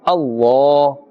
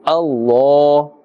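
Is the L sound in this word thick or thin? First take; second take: thick; thick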